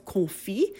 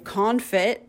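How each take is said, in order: First: The word is pronounced with a French accent. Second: The word is pronounced with an American accent. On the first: "the French major in me wants to pronounce correctly as confit" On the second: "the American in me wants to say confit"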